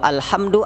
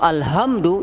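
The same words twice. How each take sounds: First: The h is a strong, throaty h. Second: The h is a light, plain h. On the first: All praise belongs to God. The speaker calls it right. "artinya segala puji bagi Allah" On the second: It means death. The speaker calls it wrong. "artinya kematian"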